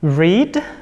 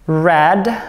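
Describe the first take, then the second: First: The vowel is long, rhyming with need. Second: The vowel is short, rhyming with bed. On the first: It is the present form of the verb. "pengucapannya berbeda" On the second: It is the past form of the verb. "Seperti membaca warna merah dalam bahasa Inggris ya. Red and red"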